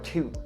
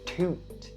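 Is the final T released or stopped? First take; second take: stopped; released. First: The final T is stopped, not released. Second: The final T is clearly released. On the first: "or you can also stop it" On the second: "You can either enunciate the T sound"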